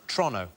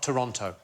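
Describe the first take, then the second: First: The word is said quickly and clipped. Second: The word is said slowly and in full. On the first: This is how locals say it. The speaker calls it right. "everything seems to be pronounced a little bit faster than it should be. So it's Toronto" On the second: This is how outsiders say it. The speaker calls it wrong. "not Toronto"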